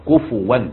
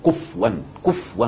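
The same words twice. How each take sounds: First: "كفوا" said ku-fu-wan, the fa carrying a clear u vowel; correct reading. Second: "كفوا" said kuf-wan, the fa silent with no vowel; wrong reading with sukun. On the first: Teacher correcting students after the wrong reading, careful correct pronunciation. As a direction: give "كفوا" its full vowel on the fa, kufuwan. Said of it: "غلط". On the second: Teacher to students, demonstrating the common mistaken reading, sukun on the fa. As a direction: show the common mistake, "كفوا" clipped as kufwan. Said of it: "في ناس كتير تقراها بالسكون". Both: Shown as a demonstration.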